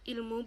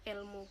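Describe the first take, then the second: First: The first vowel is pronounced as i. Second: The first vowel is pronounced as e. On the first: The speaker calls it right. "kata ilmu" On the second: The speaker calls it wrong. "berubah menjadi kata ilmu"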